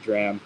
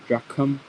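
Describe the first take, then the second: First: The word has no k sound. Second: The word has an aspirated k sound. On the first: "Much easier for me to say dram" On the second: "with an aspirated k"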